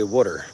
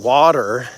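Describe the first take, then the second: First: "water" said as WOODER, with the vowel of wood; New Jersey pronunciation. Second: "water" with an open AH vowel, WAH-ter; standard pronunciation of water. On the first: Showing his New Jersey accent, "water" pronounced wooder. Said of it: "I say wooder". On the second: Contrasting with his own accent, "water" said carefully as WAH-ter. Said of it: "instead of saying water". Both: Shown as a demonstration.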